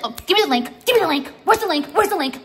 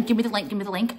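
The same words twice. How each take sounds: First: Higher, louder pestering mock voice; mocking whine. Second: Said in the usual way. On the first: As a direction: whine it like an annoying follower begging. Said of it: "And you're just like". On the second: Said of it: "remember the thing".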